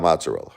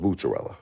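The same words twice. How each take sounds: First: Mozzarella with an open AH, "mahts-uh-rella"; disputed pronunciation. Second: Mozzarella with an OO first vowel, "moot-uh-rella"; Brooklyn pronunciation. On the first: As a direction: say mozzarella as "MAHT-suh-rella". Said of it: "It's not mozzarella". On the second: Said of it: "I told her". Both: Shown as a demonstration.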